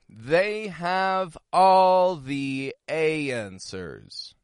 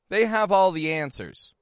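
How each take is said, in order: First: The phrase is said at a slow pace. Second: The phrase is said at a quick pace. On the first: "I want you to repeat the phrase back to me" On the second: "Now let's try a little bit quicker"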